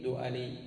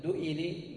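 First: دؤلي with a after the glottal stop: "du'alī"; fatha on the hamza. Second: دؤلي with i after the glottal stop: "du'ilī"; kasra on the hamza. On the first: Teacher giving the correct nisba, دؤلي said "du'alī". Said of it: "افتح العين". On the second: Teacher showing the form to replace, دؤلي said "du'ilī". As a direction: say دؤلي as du-'i-lī, rising at the end. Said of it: "وبدل". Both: Shown as a demonstration.

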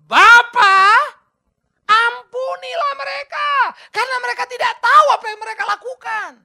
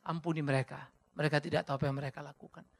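First: Jesus crying out. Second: Gentle quote. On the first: Jesus calling to the Father from the cross, loud and high. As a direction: cry the words out to the Father. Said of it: "Apa yang dia katakan?". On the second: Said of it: "Kemuliaan hatinya tampak nyata". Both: Acted.

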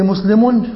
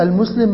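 First: مسلم ending in a clear "-un"; with tanween. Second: المسلم with no "-un" ending; without tanween. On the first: Teacher giving an example that has tanween, final n sounded. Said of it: "فيها تنوين اهي". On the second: Teacher showing the article removes tanween, no final n. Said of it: "ما عادش ينفع تجيب تنوين". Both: Shown as a demonstration.

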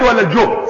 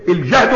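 First: الجهد said "al-juhd", second option of a quiz; damma on the jim. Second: الجهد said "el-jahd", first option of a quiz; fatha on the jim. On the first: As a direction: offer ولا الجهد with a rounded "u" after j. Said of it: "وهو بالضم الجهد". (ولا الجهد بضم الجيم) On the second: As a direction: offer الجهد with an open "a" after j. (الجهد بفتح الجيم) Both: Shown as a demonstration.

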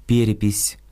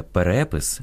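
First: «перепись» as Russian, stressed on the first syllable, пЕрепись. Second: «перепис» stressed on the second syllable, перЕпис; Ukrainian stress. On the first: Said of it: "російське". («перепись» — російською, наголос на «пе») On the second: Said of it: "українське". («перепис» — наголос на «ре») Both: Shown as a demonstration.

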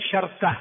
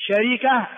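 First: شركة with sukun on the ra; lightened middle. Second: شركة with kasra on the middle ra; original vowelled form. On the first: Teacher showing the lightened form, "sharka". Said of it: "ويجوز أن تخفف بتسكين الوسط". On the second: Teacher giving the original form first, "sharika". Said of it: "شركة هو الأصل". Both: Shown as a demonstration.

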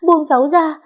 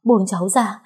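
First: Much higher and louder cry of "buông cháu ra"; tearful scream to be released; screaming plea. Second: First plea, only slightly raised; tearful plea while struggling; begging to be let go; pleading struggle. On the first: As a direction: shriek the repeat in desperation. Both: Acted. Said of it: "cố gắng vùng vẫy để thoát khỏi bọn họ".

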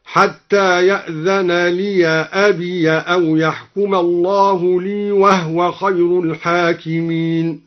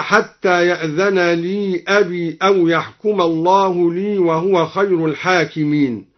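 First: Slow chant, "لي أبي" as liya abiya; open ya. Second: Said in the usual way. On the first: Shown as a demonstration. Reciter demonstrates al-Duri's reading, "لي أبي" as liya abiya. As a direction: recite slowly, -ya ending "لي" and "أبي". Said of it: "فتح الدوري الياء وصلا هكذا". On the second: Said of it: "فتح الدوري الياء وصلا".

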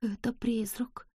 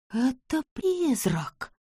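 First: Slow, scared whisper; trembling whisper. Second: Slow, hushed terrified gasp; trembling whisper. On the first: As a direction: breathe it out in fear. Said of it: "дрожащим голосом произнесла". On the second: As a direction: whisper it, shaking with fear. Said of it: "дрожащим голосом прошептала она". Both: Acted.

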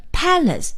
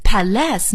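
First: "palace" as PAL-ace, weight on the first syllable; correctly stressed "palace", PAL-ace. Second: "palace" misstressed as pa-LACE; stress on second syllable. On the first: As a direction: stress the opening of "palace", leave the ending light. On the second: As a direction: hit the second syllable of "palace", first one light. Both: Shown as a demonstration. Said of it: "到底是要念成palace还是palace".

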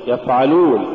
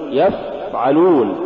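First: يفعلون with a brief f; moderately flowing f in يفعلون; balanced fa. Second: يفعلون with a long blown f; yafff-'alun, exaggerated f in يفعلون; overdone softness. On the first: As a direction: say يفعلون without dragging the f. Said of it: "قل". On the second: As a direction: drag out the f in يفعلون. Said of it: "ولا تقل". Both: Shown as a demonstration.

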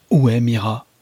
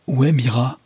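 First: Urgent demand stressed on où, louder; a feverish, pressing question. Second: Repeated demand stressed on est, higher; feverish voice. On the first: Captain demanding of the invisible foe, feverish and loud. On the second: Captain repeating his demand to Storitz, feverish and higher. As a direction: press the question again, feverish. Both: A narrator's reading. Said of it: "d'une voix fiévreuse".

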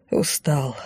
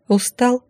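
First: Устал said low and soft, falling; Устал with a weary falling tone, softer; tired answer. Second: Устал asked with a rising question tune; Устал as a gentle question, pitch rising at the end; asking question. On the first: Уставший музыкант отвечает. (устало, тихо, с понижением на «Устал») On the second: Героиня спрашивает музыканта. (участливо, с вопросительным подъёмом на «Устал») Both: A narrator's reading.

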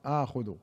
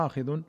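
First: آخذ as "ākhudhu", with a u after kh; damma on the khā'. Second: آخذ as "ākhidhun", with an i after kh; kasra on the khā'. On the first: Reader showing the verb reading, آخذ voiced ākhudhu. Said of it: "وبضمها فعل مضارع". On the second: Reader showing the first transmitted reading, آخذ voiced ākhidhun. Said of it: "روي بكسر الخاء اسم فاعل". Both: Shown as a demonstration.

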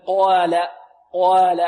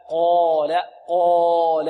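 First: قال with the alif not following the qaf's heaviness; wrong alif in قال. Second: قال with a dark, full long aa; heavy alif in قال. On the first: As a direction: mispronounce the long vowel of قال. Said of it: "هذا خطأ موجود في الألف". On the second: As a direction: let the alif in قال follow the heavy qaf. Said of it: "تتبع ما قبلها فتفخم". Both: Shown as a demonstration.

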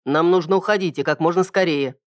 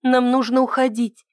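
First: Said in the usual way. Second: Anxious higher voice, stress on «нам»; urgent and uneasy, «нам» stressed first; worried. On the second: A narrator's reading. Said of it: "Ида встревоженно оглянулась".

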